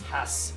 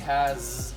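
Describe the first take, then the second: First: The word ends with an s sound. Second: The word ends with a z sound. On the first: The speaker calls it wrong. "if we sound it out, it's actually" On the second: The speaker calls it right. "We say has with the Z sound at the end"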